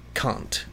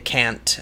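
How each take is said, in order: First: It is said in an English accent. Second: It is said in an American accent.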